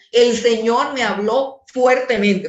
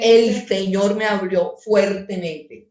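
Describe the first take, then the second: First: "El Señor me habló fuertemente" a touch louder, firm, with authority; authoritative tone. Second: "El Señor me habló fuertemente" read slowly, each word weighted; slow emphatic reading. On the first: Pastor shows the congregation the verse read with authority. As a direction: say it like a command from above. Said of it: "Dios estaba con ciertas emociones fuertes". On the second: Pastor repeats the verse slowly, with weight. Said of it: "Muy bien, Ángela". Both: Shown as a demonstration.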